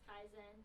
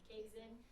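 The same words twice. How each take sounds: First: The word is said the original Japanese way. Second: The word is said the Americanized English way. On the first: This is how it is supposed to be said. "it's probably supposed to be pronounced Kaizen" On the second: This is how the team habitually says it. "we pronounce it Kaizen"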